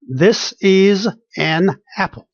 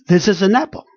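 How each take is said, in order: First: "This is an apple" slowly, word by word; unconnected words. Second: "This is an apple" run together smoothly; connected words. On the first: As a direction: separate each word in "This is an apple". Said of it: "Words connections almost never exist". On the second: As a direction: link every word in "This is an apple". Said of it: "going all the way connected". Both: Shown as a demonstration.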